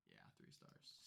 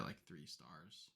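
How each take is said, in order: First: Breathy whisper, much softer; whispered aside. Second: Said in the usual way. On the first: Real, not acted. Repeating her film rating to herself, whispered. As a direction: murmur it to yourself.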